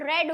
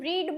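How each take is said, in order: First: The vowel is short, like 'red'. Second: The vowel is long, like 'reed'. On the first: The action is in the past. "Past में ... उसका pronunciation रेड हो जाएगा" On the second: The action is in the present. "Main form होता है verb का, उसे हम रीड बोलेंगे"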